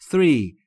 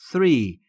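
First: It begins with a soft th sound. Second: The same.

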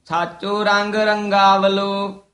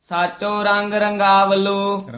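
No difference in how they are said.

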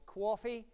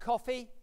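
First: The word is said in a New York accent. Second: The word is said in the speaker's usual accent.

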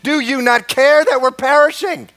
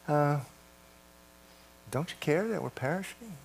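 First: It is said in a desperate, urgent way. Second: It is said in a calm, casual way.

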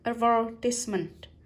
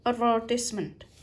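First: The stress is on the second syllable. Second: The same.

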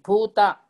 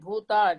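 First: The first vowel is kept short. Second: The first vowel is held long. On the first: The speaker calls it right. "It is short vowel" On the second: The speaker calls it wrong. "Don't say bhuta"

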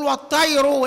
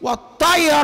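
First: The word ends with a 'u' vowel. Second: The word ends with an 'a' vowel. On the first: The word is in the nominative case. "المختار هنا الايه؟ الرفع. نقول والطير" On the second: The word is in the accusative case. "لكن في الايه هناك في الايه؟ في المصحف مكتوبه"

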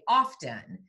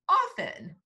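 First: The T sound is clearly pronounced. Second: The T sound is left out. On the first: "when we do hear it" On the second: "people only say often"

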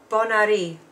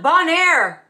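First: The last part sounds like 'ari'. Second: The last part sounds like 'air'. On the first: The speaker calls it right. "Air is Ari" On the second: The speaker calls it wrong. "It's not Bonaire"

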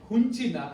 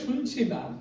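First: The first word begins with an h sound. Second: The first word begins with an sh sound. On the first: "স্বটা হ হয় হুনছি না" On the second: "আসলে শুনছি না"

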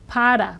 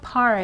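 First: The r is a quick tap like d. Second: The r is a smooth English-style r. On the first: The speaker calls it right. "that single R between vowels, is like the fast double D of the English word buddy" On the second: The speaker calls it wrong. "So it's not para"

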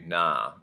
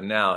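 First: The vowel is an ah sound. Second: The vowel is an ow sound. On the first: "he'll be nah" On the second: "instead of now"

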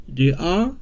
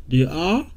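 The two takes are said the same way.

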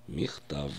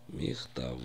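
First: The word ends with a clear voiced v sound. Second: The word ends with a clear voiced v sound.

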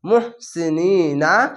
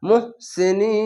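First: The word ends with a short 'na' syllable. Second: The word ends on a long, drawn-out 'een'. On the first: The reading continues without a stop. "নুন জবান না" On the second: The reader stops at the end of the word. "এখানে থামতে হবে, তার জন্য শেষ অক্ষর সাকিন দিয়ে তিন আলিফ টেনে পড়বেন"

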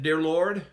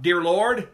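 First: It is said at a normal, quiet volume. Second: It is said very loudly.

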